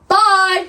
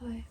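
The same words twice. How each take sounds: First: It is said very loudly. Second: It is said at normal, soft volume.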